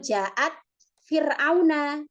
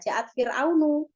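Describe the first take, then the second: First: The last word ends with an a vowel. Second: The last word ends with a u vowel. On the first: Pharaoh is the one being come to. The speaker calls it right. "Maka membacanya tidak Ja'at Fir'aunu, tapi Fir'auna" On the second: Pharaoh is the one who comes. The speaker calls it wrong. "Maka membacanya tidak Ja'at Fir'aunu"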